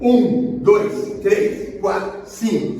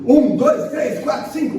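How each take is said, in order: First: The numbers are counted at a steady moderate pace. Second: The numbers are counted quickly, running together. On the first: This is the proper compression rhythm. The speaker calls it right. "Então é uma velocidade boa" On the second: The compressions are too hurried. The speaker calls it wrong. "Se eu engolir números, eu estou muito rápido"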